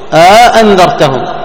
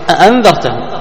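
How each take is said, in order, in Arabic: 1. تفصل بين الهمزتين ألف ممدودة. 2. تُنطق همزتان متتاليتان. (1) "يدخل ألف بين الهمزتين" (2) "منهم من يبقى لهم السين معا على الأصل"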